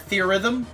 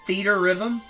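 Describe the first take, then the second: First: It is said as one blended word. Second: It is said as two full words. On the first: "or theorhythm?" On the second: "Is it pronounced theater rhythm"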